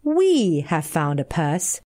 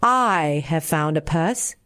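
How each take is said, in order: First: The word we set apart, slow, with a rising tune; stress on we. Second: The word I set apart, slow, with a rising tune; stress on I. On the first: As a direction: lean on we in 'We have found a purse' to offer sharing. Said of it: "Say rather". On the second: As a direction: lean on I in 'I have found a purse' to mark the selfish word. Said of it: "Do not say". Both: A narrator's reading.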